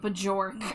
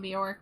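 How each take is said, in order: First: The J is sounded as a separate syllable. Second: The J is not sounded separately.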